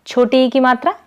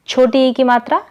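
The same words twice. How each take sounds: The two takes are said the same way.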